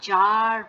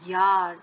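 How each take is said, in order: First: The word begins with a J sound. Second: The word begins with a Y sound. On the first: The speaker calls it wrong. "এটা কিন্তু জার কখনোই না" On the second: The speaker calls it right.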